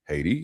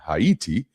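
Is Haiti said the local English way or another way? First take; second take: local English; another way. First: The name is said the usual English way. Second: The name is said in a non-English way.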